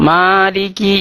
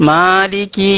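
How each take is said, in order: Both takes have the same delivery.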